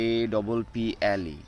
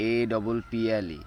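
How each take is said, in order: First: এ said as ay while spelling. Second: এ said as the wrong flat sound; wrong spelling take. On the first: Teacher spelling apple aloud, clear এ. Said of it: "তখনই উচ্চারণ হবে এ". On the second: Teacher showing the wrong way to spell apple. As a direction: spell it the way not to. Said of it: "not এ". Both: Shown as a demonstration.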